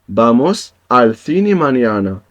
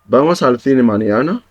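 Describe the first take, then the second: First: The voice falls at the end, a statement. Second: The voice rises at the end, a question.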